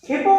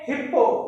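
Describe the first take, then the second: First: The middle p sound is short. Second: The middle p sound is held long. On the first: The speaker calls it right. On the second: The speaker calls it wrong.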